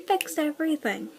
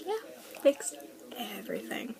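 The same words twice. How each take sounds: First: Said in the usual way. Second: Fixed dropped to a whispered everything; sarcastic under breath. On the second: Shown as a demonstration. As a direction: mutter it sarcastically, fading to a whisper.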